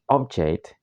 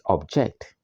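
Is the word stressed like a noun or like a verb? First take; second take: noun; verb. First: It has the stress pattern of the noun. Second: It has the stress pattern of the verb. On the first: The word is a noun. "the noun is object" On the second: The word is a verb. "the verb is object"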